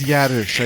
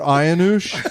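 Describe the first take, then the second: First: The name starts with a 'y' sound. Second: The name starts with an open 'ah' vowel. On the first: The speaker calls it right. "I think that's a Y" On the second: The speaker calls it wrong. "what was that again?"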